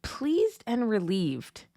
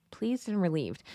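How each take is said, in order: First: Slow, lingering definition read; each word of "Pleased and relieved." drawn out; read out slowly. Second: Softer musing repeat of "Pleased and relieved."; hushed, thoughtful "Pleased and relieved."; quiet repeat. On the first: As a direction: dwell on "Pleased and relieved." as if reading it aloud. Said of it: "it said". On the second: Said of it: "They were thankful that the war was finally over". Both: Shown as a demonstration.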